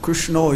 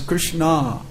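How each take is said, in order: First: The name ends in a 'no' sound. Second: The name ends in a 'na' sound. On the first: The speaker calls it wrong. "it's not Krishno" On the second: The speaker calls it right. "it's Krishna"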